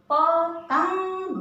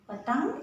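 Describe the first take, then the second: First: Sung, पतंग sing-song and slow, ंग held; teacher singing पतंग for the class; sung-out demo. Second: Said in the usual way. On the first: Shown as a demonstration. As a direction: chant पतंग slowly. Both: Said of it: "ये अंग अनुस्वार भी है".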